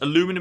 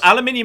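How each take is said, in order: First: It is said in the North American way. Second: It is said in the British way. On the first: "Aluminum is just an accepted North American variant" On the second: "aluminium is the actual element"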